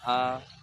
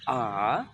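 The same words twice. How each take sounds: First: The pitch stays high and level. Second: The pitch dips low, then rises. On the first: "ada datar gini" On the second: "kayak V turun baru naik"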